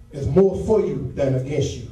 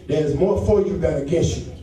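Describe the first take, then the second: No difference in how they are said.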